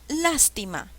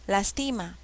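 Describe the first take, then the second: First: The stress is on the first syllable. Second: The stress is on a later syllable.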